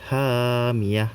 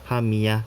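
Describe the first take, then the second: First: The first vowel is held long, two beats. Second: The first vowel is cut short, one beat. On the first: The speaker calls it right. "dibaca panjang sebanyak dua harokat" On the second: The speaker calls it wrong.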